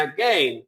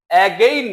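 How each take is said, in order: First: Again said short, "a-gen", lower; shortened pronunciation. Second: Again with long, full vowels, "ay-gain"; wrong pronunciation demo. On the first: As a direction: keep again short with a light first vowel. (again-কে ছোট করে "অ্যাগেন" উচ্চারণ) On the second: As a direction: stretch again out loudly as "ay-gain". (again-কে টেনে "এ-গেইন" বলে ভুল উচ্চারণ) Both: Shown as a demonstration. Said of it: "এটা ছোট হয়ে যাবে".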